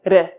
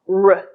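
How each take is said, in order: First: The R is made in a non-American way. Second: The R is made the American way. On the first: The speaker calls it wrong. "may sound like R in your language" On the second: The speaker calls it right. "the American R sounds like R"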